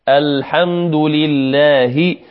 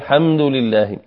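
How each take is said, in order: First: The opening al- sound is clearly pronounced. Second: The opening al- sound is left out. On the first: The speaker calls it right. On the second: The speaker calls it wrong.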